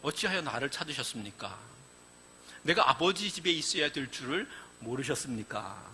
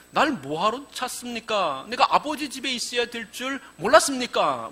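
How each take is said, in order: First: Calm, unbothered, much softer reply; young Jesus coolly answering his worried parents; nonchalant. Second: Bratty talk-back; a cheeky boy talking back to his mother; cheeky answer. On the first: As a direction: answer as if nothing is wrong. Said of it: "천연덕스럽게 이런 이야기를 합니다". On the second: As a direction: sass the parents. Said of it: "정말 싸가지 없는 대답이죠". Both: Retold or imitated.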